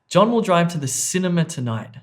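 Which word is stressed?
cinema. The stress falls on the word cinema. He is going to this place, not another one. "not to the restaurant"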